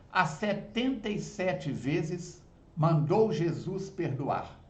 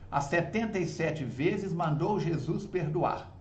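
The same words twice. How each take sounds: First: The line is recited at a slower pace. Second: The line is recited at a faster pace.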